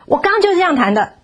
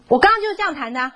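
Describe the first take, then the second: First: Higher, insistent, 就 pressed hard; stubborn child. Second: Fast, higher, whiny retort; impatient child. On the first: Child insisting to mother he played it right, stubborn. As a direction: dig in like a sulky kid. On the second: Child brushing off his mother's correction, impatient. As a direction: snap back like an annoyed kid. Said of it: "很不耐烦。". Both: Retold or imitated.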